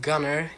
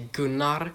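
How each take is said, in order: First: The name is said with an English pronunciation. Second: The name is said with a Swedish pronunciation. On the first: "instead of Gunnar" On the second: "it sounds a bit weird for you"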